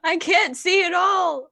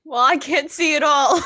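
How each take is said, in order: First: Higher-pitched, loud, emphatic yell; shouted repeat. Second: High, shouted comic exasperation; loud shouted reply. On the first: Blinded character repeating it to a deafened friend, emphatic shout. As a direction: shout it over for someone deafened. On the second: Blinded character answering a deafened friend, shouted. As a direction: yell back at someone who can't hear. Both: Acted.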